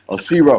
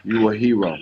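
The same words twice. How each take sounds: First: Shero said louder, corrected from hero; proud emphatic shero; stress on shero. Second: Said in the usual way. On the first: Real, not acted. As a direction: punch the word shero as the upgrade.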